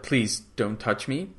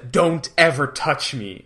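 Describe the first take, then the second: First: Soft, slow and careful plea. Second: Slow, firm, leaning on "ever". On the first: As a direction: gently warn him off, a little softer and slower. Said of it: "very careful with Salik". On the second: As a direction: lay down the line, stressing "ever". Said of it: "very firm with Harvey". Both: Retold or imitated.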